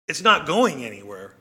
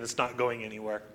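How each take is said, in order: First: Said in the usual way. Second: Quiet. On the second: Shown as a demonstration.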